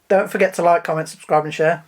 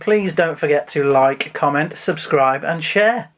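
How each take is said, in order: First: It is said quickly. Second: It is said at a normal pace.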